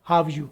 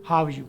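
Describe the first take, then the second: First: 'Are' is dropped and the words run together. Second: 'Are' is dropped and the words run together.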